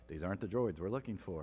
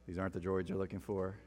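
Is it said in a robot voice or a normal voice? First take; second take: normal voice; robot voice. First: It is said in a normal voice. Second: It is said in a robotic voice.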